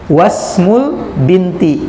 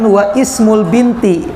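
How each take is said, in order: First: The i is dropped, wa joins smul. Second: The i of ismul is sounded separately. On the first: The speaker calls it right. "tetapi wasmul binti. Jadi hamzahnya nggak dibaca" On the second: The speaker calls it wrong. "kita tidak mengatakan"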